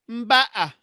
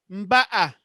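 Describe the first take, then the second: Both takes have the same delivery.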